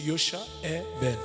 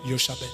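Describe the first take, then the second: First: The name is said in full, with every syllable. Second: The name is said quickly, with one syllable dropped. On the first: "En principe, c'est ça" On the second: "pour parler vite, on dit Yosha Bel"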